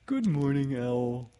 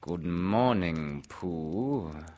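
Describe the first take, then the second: First: High-pitched, eager storybook greeting; higher, louder children's-story character; Pooh. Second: Slow, drawn-out storybook greeting; unhurried, stately character voice; Owl. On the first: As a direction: greet brightly in a raised cartoon-bear voice. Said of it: "he said". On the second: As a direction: stretch the greeting out like a ponderous bird. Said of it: "said Owl". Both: Acted.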